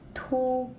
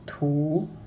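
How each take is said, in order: First: The pitch stays high and level. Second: The pitch dips low, then rises.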